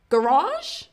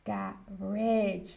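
First: It is said in an American accent. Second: It is said in an English accent. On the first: "So Americans might say garage" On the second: "Whereas in the English accent, we would say garage"

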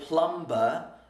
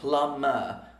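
First: The B sound after M is pronounced. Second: The B sound after M is silent. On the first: The speaker calls it wrong. "I didn't say plumber" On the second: The speaker calls it right. "I said plumber. We don't say the B"

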